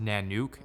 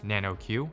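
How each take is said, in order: First: The word ends with a short 'nook' sound. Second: The word ends with the letter sound 'Q'. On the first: The speaker calls it right. "It's correctly pronounced Nanook" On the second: The speaker calls it wrong. "and not Nano-Q"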